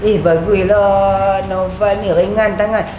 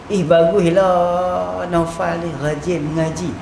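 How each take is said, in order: First: Slow, drawn-out mock compliment; sarcastic praise. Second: Slow, drawn-out praise, evenly pitched. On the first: Teacher demonstrating a jibe disguised as praise, slow sarcastic delivery. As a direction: praise as a dig, stretching the words. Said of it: "Hati nama dia perli". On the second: Teacher demonstrating praise for a student's studying, slow praising delivery. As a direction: say it slowly as straightforward praise. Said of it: "Tu puji". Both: Shown as a demonstration.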